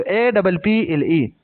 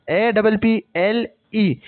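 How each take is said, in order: First: Said in the usual way. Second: Each letter slowly and separately; slow spelled-out letters. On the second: Shown as a demonstration. Teacher spelling apple slowly for students, dictating each letter.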